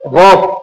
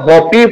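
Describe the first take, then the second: First: The word ends without a final vowel sound. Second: The word ends with an added final vowel sound. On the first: The speaker calls it right. "এখানে এটা silent পড়তে হবে" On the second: The speaker calls it wrong. "এটা হপই পড়া যাবে না"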